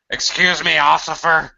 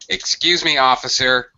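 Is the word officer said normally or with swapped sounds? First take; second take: swapped; normally. First: Sounds in the word officer are swapped around. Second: The word officer is pronounced normally. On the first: The speaker calls it wrong. "don't say this. ... That's called a spoonerism. You shift the letters around" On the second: The speaker calls it right. "You would address them as officer"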